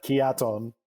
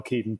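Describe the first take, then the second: First: Keaton stretched to three syllables, "kee-ah-TONE"; put-on accent. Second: Said in the usual way. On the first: Shown as a demonstration. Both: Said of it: "didn't put the accent".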